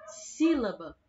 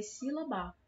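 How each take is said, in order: First: "sílaba" with a strong, drawn first syllable SÍ; stress on SÍ. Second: "sílaba" with the last syllable stressed, si-la-BÁ. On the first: Teacher shows how we really say it, "sílaba" stressed on SÍ. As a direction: lean hard on SÍ, let "-laba" drop. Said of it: "O si é a parte que tá puxando mais". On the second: Teacher shows a wrong stress, "sílaba" said si-la-BÁ. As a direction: shift all the weight onto the final BA. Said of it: "Se a sílaba tônica dessa palavra for a ba". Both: Shown as a demonstration.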